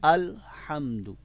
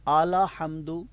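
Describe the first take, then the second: First: The L is silent with no following vowel. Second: The L is followed by an 'a' vowel. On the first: The speaker calls it right. "अल अल पढ़ेंगे" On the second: The speaker calls it wrong. "लाम के ऊपर ज़बर नहीं पढ़ेंगे"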